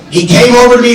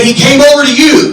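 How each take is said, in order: First: Said in the usual way. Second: Incredulous echo. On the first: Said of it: "I said, "He came over to you". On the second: Retold or imitated. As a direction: pitch up high, question-like rise on "over". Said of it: "I said".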